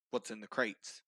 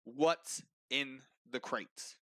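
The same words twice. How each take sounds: First: Low, level-headed question; understated menace. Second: Very slow, word by word; insistent questioning. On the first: Officer questions kobold, hand by sword. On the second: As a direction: space out each word with authority. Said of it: "And so he says again". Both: Acted.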